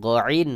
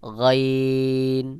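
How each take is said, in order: First: গইন the common wrong way, split into two short syllables; mistaken গইন. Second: গইন as one round throaty sound, very drawn out; correct rounded গইন. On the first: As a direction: demonstrate the faulty গইন, not held long. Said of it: "অনেকে ভুল করে গইন বলে". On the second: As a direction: hold a long গইন with a hollow first sound. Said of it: "সহি উচ্চারণ হলো". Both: Shown as a demonstration.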